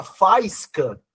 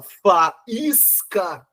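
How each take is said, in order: First: FAIS-ca, com "ai" numa só sílaba; "faisca" com a tônica em FAIS, sem separar A e I; ditongo errado. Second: Fa – ÍS – ca, lento e silabado; "faísca" com o I separado do A e tônico; hiato correto. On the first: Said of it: "você não fala faisca". (junta A e I num ditongo em "faisca") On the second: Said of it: "Você fala faísca". (pausas entre as sílabas de "faísca", força em ÍS) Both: Shown as a demonstration.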